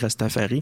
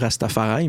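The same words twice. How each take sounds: First: The word is pronounced the French way. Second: The word is pronounced the English way. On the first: "mais on pourrait dire" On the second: "je le dis en anglais"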